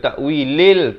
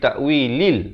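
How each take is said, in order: First: The l is followed by an 'e' vowel. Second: The l is followed by an 'i' vowel. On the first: The speaker calls it wrong. "Bukan bunyi le ya" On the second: The speaker calls it right. "Lam balik kasrah bunyi li"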